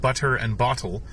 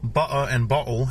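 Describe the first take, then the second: First: It is said in a standard accent. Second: It is said in a Cockney accent.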